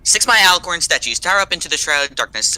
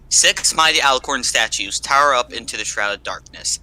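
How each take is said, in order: First: It is read in Quillian's character voice. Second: It is read in the speaker's normal voice.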